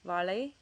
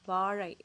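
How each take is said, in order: First: The middle consonant is a plain L sound. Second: The middle consonant is an R-like sound. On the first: The speaker calls it wrong. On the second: The speaker calls it right.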